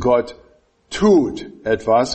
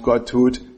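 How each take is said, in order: First: The stress falls on the word tut. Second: The stress falls on the word etwas. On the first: The focus is on the acting itself. "Bei dem nächsten Punkt wird es" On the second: The focus is on what is done. "bei dem nächsten Punkt"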